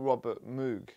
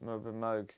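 First: Moog does not rhyme with vogue. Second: Moog rhymes with vogue. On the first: The speaker calls it wrong. "it's not Robert Moog" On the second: The speaker calls it right. "Moog is in vogue"

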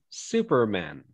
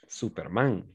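First: The stress is on the first syllable. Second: The stress is on the last syllable. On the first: This is the English way of saying it. "But in English, we say Superman" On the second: This is the Spanish way of saying it. "In Spanish, of course, we say, ah, Superman"

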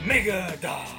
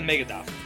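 First: It is said in a booming announcer voice. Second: It is said in a plain, ordinary voice. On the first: "I hear it in a WWE wrestling announcer voice" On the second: "Not the mega dock"

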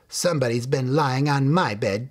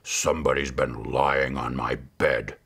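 First: It is said in a medium-sized voice. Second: It is said in a big, gruff voice.

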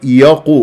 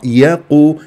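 First: The y sound is made heavy, like the q. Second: The y sound is kept light and thin. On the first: The speaker calls it wrong. "غلط" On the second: The speaker calls it right. "صح مرققة"

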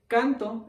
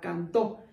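First: The stress is on the first syllable. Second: The stress is on the last syllable. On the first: I sing. "yo canto en primera persona" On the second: He sang. "él cantó. Él puede ser la tercera persona en pasado"

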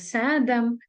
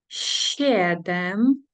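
First: The first consonant is hard. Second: The first consonant is soft. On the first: The speaker calls it wrong. "багато хто каже сєдем або седем" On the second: The speaker calls it right. "Тут у нас SI ми читаємо як м'яку"

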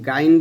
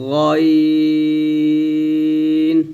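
First: It is said with an open 'a' vowel, 'gain'. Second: It is said with a rounded 'o' vowel, 'goin'. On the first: The speaker calls it wrong. "আমরা অনেকে গাইন বলি" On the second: The speaker calls it right. "গাইন না বলে বলতে হবে গইন এরকম"

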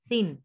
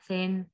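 First: The vowel sounds like a short 'i'. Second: The vowel sounds like an 'e'. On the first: The speaker calls it right. "जो इसकी अपनी आवाज है वही रहेगी" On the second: The speaker calls it wrong. "ऐसे नहीं"

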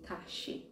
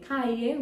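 First: The double-L is said like an 'sh' sound. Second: The double-L is said like a 'y' sound.

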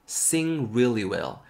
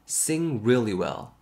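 The two takes are said the same way.

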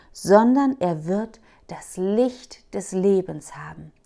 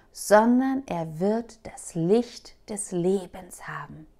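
No difference in how they are said.

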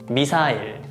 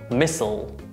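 First: It is said with Korean pronunciation. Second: It is said with American pronunciation. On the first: "Korean pronunciation" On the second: "American pronunciation"

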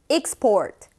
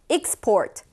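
Both takes have the same delivery.

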